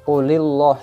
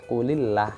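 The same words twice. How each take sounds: First: The L in 'Allah' sounds thick and heavy. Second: The L in 'Allah' sounds thin and light. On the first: The speaker calls it wrong. "itu juga salah" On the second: The speaker calls it right. "ini lafzul jalalah dibaca tipis"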